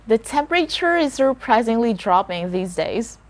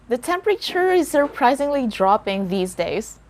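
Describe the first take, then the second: Both takes have the same delivery.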